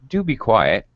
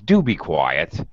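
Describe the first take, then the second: First: It is said in a gentle, polite tone. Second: It is said in a mocking, sarcastic tone. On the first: The speaker is making a courteous request. "It it can sound slightly more polite" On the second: The speaker is mocking the listener. "Sometimes it sounds sarcastic"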